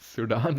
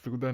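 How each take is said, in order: First: The name ends with a long 'daan' sound. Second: The name ends with a short 'dan' sound. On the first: The speaker calls it wrong. "सुडान नहीं होता" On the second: The speaker calls it right. "सूदन होता है, इसको सूदन pronounce करते हैं"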